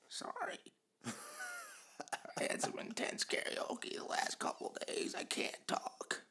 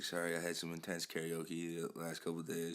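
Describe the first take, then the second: First: It is said in a croaky, frog-like voice. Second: It is said in a normal voice.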